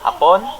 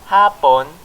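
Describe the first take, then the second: First: The stress is on the last syllable. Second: The stress is on the first syllable. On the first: It means the Japanese people. "if we put the stress on the last syllable" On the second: It means afternoon. "the stress is on the first syllable"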